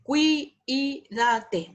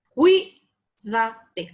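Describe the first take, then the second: First: "cuídate" broken apart as cu-i-da-te; split diphthong. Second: "cuídate" as CUI, da, te, first syllable loud; three syllables. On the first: Teacher mimicking a student's mistake, "cuídate" in too many syllables. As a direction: draw out "cuídate", pulling u and i into two syllables. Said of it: "a veces uno dice". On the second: Teacher correcting the mistake, "cuídate" in three clear syllables. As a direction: say "cuídate" in three separate beats, cui kept whole. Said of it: "Hay tres sílabas". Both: Shown as a demonstration.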